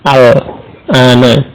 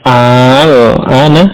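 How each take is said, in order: First: The first vowel is kept short. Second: The first vowel is drawn out long. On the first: It simply means now. "dibaca pendek ya" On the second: It asks whether it is now. "jadi membacanya panjang ya"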